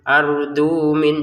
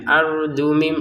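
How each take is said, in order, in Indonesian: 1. Kata kedua berakhir dengan bunyi n. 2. Kata kedua berakhir dengan bunyi m. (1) "jangan ardu min, jangan seperti itu" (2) "langsung saja"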